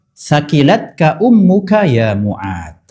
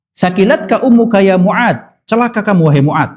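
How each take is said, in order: First: Slow, drawn-out reverent Arabic; "Sakilatka ummuka ya Mu'ad" read slowly and solemnly as scripture; slow solemn recitation. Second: "Sakilatka ummuka ya Mu'ad" exclaimed as a fond scolding; mock rebuke. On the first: Acted. Preacher first recites the Prophet's reply, slow and solemn. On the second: Preacher voices the Prophet gently scolding Mu'ad, a mock rebuke. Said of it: "kayak minta ampun buat Mu'ad".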